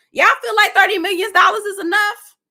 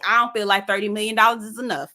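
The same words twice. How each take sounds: First: Incredulous question. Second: Said in the usual way. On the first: Real, not acted. Asking chat about the settlement.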